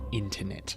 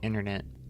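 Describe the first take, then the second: First: It is said with a British accent. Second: It is said with an American accent.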